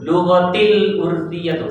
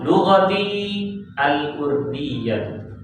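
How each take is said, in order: First: The final i drops straight into the l. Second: A long i is followed by a break. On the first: The speaker calls it wrong. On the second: The speaker calls it right. "Kalau mau baca waqaf"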